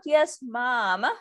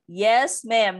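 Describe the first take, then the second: First: The last word is said like 'mom'. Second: The last word is said like 'ma'am'. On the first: The speaker calls it wrong. "instead of saying ma'am, they say mom" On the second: The speaker calls it right. "Yes, ma'am, not yes, mom"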